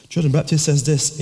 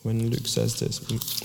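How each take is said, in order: First: "John" punched louder and higher; corrective stress on John. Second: Said in the usual way. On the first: Real, not acted. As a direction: fix the name with a firm hit on "John". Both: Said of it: "not Luke, when John the Baptist says this".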